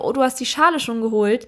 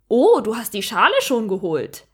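First: It sounds warmly joyful and pleased. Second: It sounds astonished, as if surprised at the ability.

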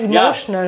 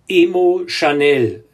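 First: It is said like the word 'emotional'. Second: It is said like 'emo' plus 'channel'. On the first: The speaker calls it right. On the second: The speaker calls it wrong.

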